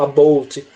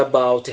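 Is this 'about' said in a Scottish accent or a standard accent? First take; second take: Scottish; standard. First: It is said in a Scottish accent. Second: It is said in a standard accent. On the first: "os escoceses falam about" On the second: "em vez de about"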